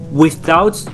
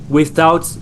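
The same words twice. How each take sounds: The two takes are said the same way.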